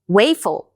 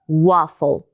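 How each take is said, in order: First: The first vowel is a diphthong like 'ei'. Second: The first vowel is a short single vowel. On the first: The speaker calls it wrong. "Bé" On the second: The speaker calls it right. "a gente diz waffle"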